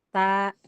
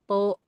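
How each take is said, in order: First: The vowel is thin and ends like a. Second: The vowel is thick and ends like o. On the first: The speaker calls it right. "ketika difathahkan dia ujungnya a" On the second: The speaker calls it wrong. "Tidak bo, to, enggak begitu"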